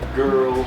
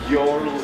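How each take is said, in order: First: The vowel is an 'er' sound. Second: The vowel sounds like 'yo'. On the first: The speaker calls it right. "it's girl" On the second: The speaker calls it wrong. "It's not it's not uh"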